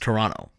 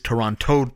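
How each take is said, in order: First: The second t sound is dropped. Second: The second t sound is clearly pronounced. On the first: This is how locals say it. "for us, it's Toronto" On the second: This is how people from elsewhere say it. "For everyone outside of Toronto, it is Toronto to them"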